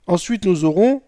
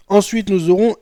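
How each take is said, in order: Both takes have the same delivery.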